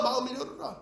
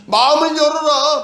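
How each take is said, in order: First: Much softer repeat, falling at the end; 마음을 열어라 said gently, fading; soft echo. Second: Higher, louder and slow, 마음을 stressed; loud slow plea. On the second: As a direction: call out 마음을 열어라 slowly and loud. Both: Acted. Preacher voices God's plea, then repeats.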